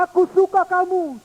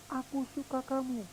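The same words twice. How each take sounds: First: Put-on high, loud child's voice; child calling out. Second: Very soft, far off; faint echo. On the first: Boy calling fondness to the hills, high child voice. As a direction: call it fondly to the hills. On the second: Pretend. Echo answering the boy's fondness, very faint. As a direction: whisper it back like an echo.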